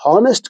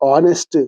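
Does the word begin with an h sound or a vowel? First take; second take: h sound; vowel. First: The word starts with an audible h sound. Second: The word starts directly with a vowel sound. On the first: The speaker calls it wrong. "ఇది హానెస్ట్ కాదమ్మా" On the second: The speaker calls it right. "ఇది ఆనెస్ట్"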